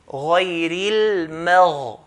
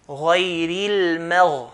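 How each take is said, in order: No difference in how they are said.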